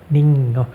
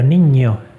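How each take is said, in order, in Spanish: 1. La ñ se dice sin ningún deslizamiento parecido a una y. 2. La ñ lleva un deslizamiento claro parecido a una y. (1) "pronunciaba solamente la ñ y, y evitaba la i" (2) "la ñ tiene en realidad dos letras, la ñ y la i"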